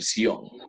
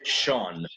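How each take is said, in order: First: The ending is said as two syllables, see-on. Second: The ending is said as one syllable, shun. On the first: This is the Spanish pronunciation. "pero en español es el Sion o el Sion" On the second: This is the English pronunciation. "solo que lo vamos a pronunciar Sean"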